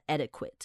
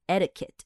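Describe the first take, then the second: First: The ending is pronounced like 'quit'. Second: The ending is pronounced like 'ket'. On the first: The speaker calls it wrong. "很多人可能会想要把那个quit 念出来，很多人可能会念成adequate. But it's actually not" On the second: The speaker calls it right. "It's etiquette"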